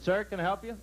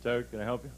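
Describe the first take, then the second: First: Bright, lifted salesman greeting; eager salesman. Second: Lower, flatter copy of the salesman's greeting; clumsy copycat. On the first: Comic voicing the salesman greeting a customer, eager. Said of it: "the man came in and said". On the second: Comic voicing the Polak copying the salesman, lightly flat. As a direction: echo the salesman's line without his polish. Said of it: "He said". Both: Retold or imitated.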